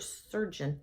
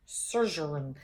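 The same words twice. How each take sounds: First: "surgeon" said correctly in two syllables, SUR-jun; corrected pronunciation. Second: "surgeon" garbled into three syllables, SUR-zhur-un; mock mispronunciation. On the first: Real, not acted. Speaker correcting her own stumble, "surgeon" as SUR-jun. Fumbles the word, then corrects it. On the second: Shown as a demonstration. Speaker mocking her own stumble, "surgeon" as SUR-zhur-un. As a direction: say "surgeon" as a slurred SUR-zhur-un, low and soft. Mocks own fumbled word after laughing.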